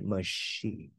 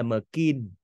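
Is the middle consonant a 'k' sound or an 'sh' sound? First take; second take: sh sound; k sound. First: The middle consonant is an 'sh' sound. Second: The middle consonant is a 'k' sound. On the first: The speaker calls it right. "Cách đọc thứ ba là âm sờ" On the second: The speaker calls it wrong. "Chứ không phải machine hay là makin"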